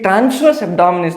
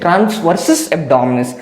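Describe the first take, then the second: First: The first word ends with a short 'verse' sound. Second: The first word ends with a longer 'versus' sound. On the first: The speaker calls it wrong. "कुछ बच्चे गलत pronounce करते हैं, ये ट्रांसवर्स abdominis नहीं है" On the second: The speaker calls it right. "This is ट्रांसवर्सस abdominis"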